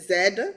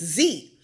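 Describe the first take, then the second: First: It is said in a Nigerian accent. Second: It is said in an American accent.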